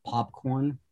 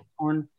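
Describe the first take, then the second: First: Said in the usual way. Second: "popcorn" with a regional Boston-area vowel; local vowel. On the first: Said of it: "instead of popcorn". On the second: Shown as a demonstration. Guide showing their own vowel quirk, regional "popcorn". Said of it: "some of the vowel stuff".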